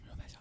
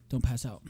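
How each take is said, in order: First: Whispered warning. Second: Said in the usual way. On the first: Shown as a demonstration. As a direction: breathe the words out unvoiced.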